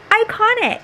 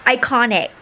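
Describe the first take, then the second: First: Excited squeal. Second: Said in the usual way. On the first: Real, not acted. Repeats word, second squealed.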